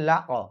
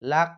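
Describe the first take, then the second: First: The final consonant ends with an upward bounce. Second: The final consonant stops flat without a bounce. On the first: The speaker calls it right. "উপরের দিকে ধাক্কা" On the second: The speaker calls it wrong. "তাহলে আপনার পড়া শুদ্ধ হবে না"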